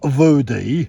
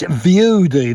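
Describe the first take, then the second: First: The name begins with an 'oo' sound. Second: The name begins with a 'you' sound. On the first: The speaker calls it wrong. "If you keep saying it wrong, not Voody" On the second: The speaker calls it right. "it's Viewdy"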